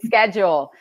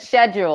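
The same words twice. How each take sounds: First: It is pronounced the way Americans say it. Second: It is pronounced the way Australians say it. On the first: "Americans that say schedule" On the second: "you said schedule, like like Sebastian in Australia"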